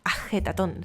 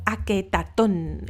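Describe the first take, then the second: First: The second consonant is a throaty h sound. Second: The second consonant is a hard k sound. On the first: The speaker calls it right. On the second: The speaker calls it wrong.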